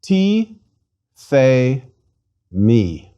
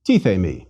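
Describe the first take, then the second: First: "Ti, the, mi" as three separate syllables, pausing between each; slow teaching model, one syllable at a time; slowly. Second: "Ti, the, mi" run together as one word, lower in pitch; quicker, connected model of the word; faster. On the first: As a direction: read it slowly, stepping down in pitch syllable by syllable. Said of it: "Let's read it slowly". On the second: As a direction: read it faster, joining the three syllables. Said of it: "And faster". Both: Shown as a demonstration.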